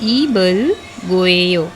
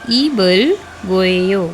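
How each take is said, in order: First: A B sound, linked into the following vowel. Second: A B sound, linked into the following vowel.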